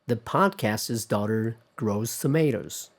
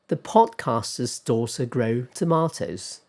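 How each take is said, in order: First: It is spoken in an American accent. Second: It is spoken in a British accent. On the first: "I'll try my best American accent"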